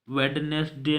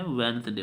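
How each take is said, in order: First: वेडनेसडे said as written, वेड-नेस-डे with every letter sounded; spelled-out pronunciation. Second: वेडनेसडे said as वेन्सडे, the d silent; correct pronunciation. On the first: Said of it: "वेडनेसडे नहीं पढ़ते हैं". (वेडनेसडे को हर अक्षर बोलकर, गलत तरीके से) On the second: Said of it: "वेडनेसडे पढ़ते हैं". (वेडनेसडे को सही तरीके से, वेन्सडे बोलें) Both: Shown as a demonstration.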